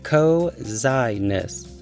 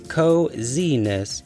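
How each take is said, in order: First: The second vowel sounds like 'eye'. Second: The second vowel sounds like 'ee'. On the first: The speaker calls it wrong. "long I" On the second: The speaker calls it right. "Let's try the long E sound"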